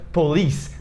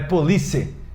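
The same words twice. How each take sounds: First: The word ends with a plain S sound. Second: The word ends with an added final vowel. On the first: The speaker calls it right. "Esse C tem um som de S no final" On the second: The speaker calls it wrong. "não é police"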